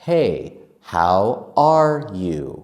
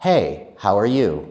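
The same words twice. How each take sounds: First: The phrase is said slowly with every word clear. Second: The phrase is said fast with 'are' reduced.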